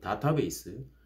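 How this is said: The first syllable is dah, then ta. This is how people say it locally. "그럼 여긴 다타베이스"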